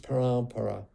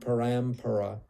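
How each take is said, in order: First: The vowel before it is nasalized, no full m. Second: A full m consonant is pronounced in the middle. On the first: The speaker calls it right. "it's parampara. Uh, the A gets nasalized" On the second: The speaker calls it wrong. "this isn't parampara"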